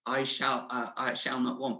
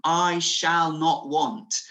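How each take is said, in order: First: Floaty, nice. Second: I shall not want, slow, loud and firm; slow firm declaration. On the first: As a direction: toss it off without conviction. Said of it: "a floaty, nice". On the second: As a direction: plant it like a stake in the ground. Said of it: "this declaration". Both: Shown as a demonstration.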